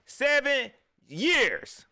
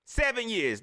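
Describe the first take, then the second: First: Slow, higher, louder "Seven years"; drawn-out ominous warning. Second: Said in the usual way. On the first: Real, not acted. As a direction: stretch "Seven years" out like a prophecy.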